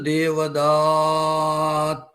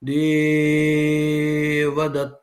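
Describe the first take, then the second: First: The third vowel is greatly prolonged. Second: The first vowel is greatly prolonged. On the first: "ఆ దానికి కూడా ప్లుతం వస్తుంది" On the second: "ఆ ఏకారము గురువు కాబట్టి దానికి ప్లుతం వచ్చింది"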